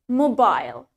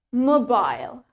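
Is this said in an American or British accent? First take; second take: British; British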